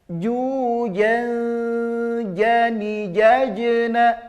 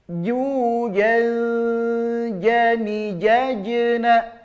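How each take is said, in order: No difference in how they are said.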